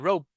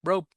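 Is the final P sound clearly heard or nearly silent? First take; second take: nearly silent; nearly silent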